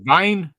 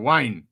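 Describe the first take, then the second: First: The name begins with a V sound. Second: The name begins with a W sound. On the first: "Is it Vine or Wine? ... a lot of the W's are V's" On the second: "Is it Vine or Wine?"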